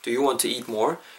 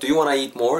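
First: 'Want to' is said as two full words. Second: 'Want to' is blended into 'wanna'. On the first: It sounds clean and simple. "깔끔하게 심플하게" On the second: It sounds natural and conversational. "자연스럽게 뭐 구호철에서"

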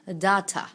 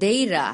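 First: It is British, with a crisp clear t. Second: It is American, with a soft flapped t.

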